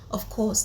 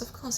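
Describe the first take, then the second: First: The voice sounds firm and commanding. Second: The voice sounds soft and unsure. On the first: The speaker deserves to be listened to. The speaker calls it right. "Compared to someone who says" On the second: The speaker does not command attention. The speaker calls it wrong. "as opposed to someone coming to say"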